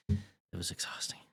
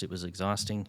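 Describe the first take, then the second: First: Worn-out whisper, much softer. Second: Said in the usual way. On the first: Real, not acted. Dad recalling three draining test days, tired whisper. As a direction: let the breath carry it, drained.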